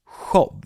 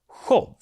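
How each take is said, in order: First: It starts with the Swedish sj sound. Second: It starts with the Swedish sj sound.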